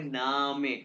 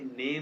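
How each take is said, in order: First: The word is said as 'nah-meh' with two syllables. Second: The word is said like English 'name'. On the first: The speaker calls it right. "इसको पढ़ेंगे नामे" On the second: The speaker calls it wrong. "ये नेम नहीं पढ़े"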